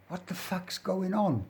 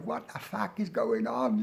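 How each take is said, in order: First: High, softly voiced London accent. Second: Put-on London accent. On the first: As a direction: imitate a baffled Londoner, London accent pitched up. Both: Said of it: "London accent".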